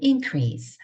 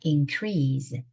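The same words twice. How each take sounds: First: The stress is on the first syllable. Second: The stress is on the second syllable. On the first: It is the noun meaning a rise. "명사가 되고요" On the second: It is the verb meaning to rise. "강세를 뒤에다 두면"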